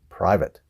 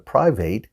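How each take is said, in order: First: The second vowel is short and reduced. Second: The second vowel is a full A sound. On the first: The speaker calls it right. "we don't really pronounce it that way" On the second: The speaker calls it wrong. "Some students call it private because it has an A in it"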